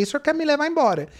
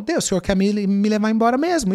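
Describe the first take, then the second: First: Laughing while asking. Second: Said in the usual way. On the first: Retold or imitated. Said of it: "E ri, ri, no meio do caminho eu ri". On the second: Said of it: "eu falo".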